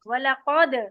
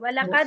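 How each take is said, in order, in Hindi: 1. q की आवाज़ भारी और भरी हुई है। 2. q की आवाज़ हल्की और पतली है। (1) "कॉफ को मोटा पढ़ेंगे" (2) "वलक़द नहीं"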